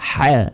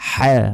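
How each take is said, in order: Both takes have the same delivery.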